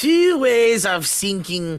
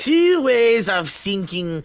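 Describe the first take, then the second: First: It is spoken with a put-on French accent. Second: The same.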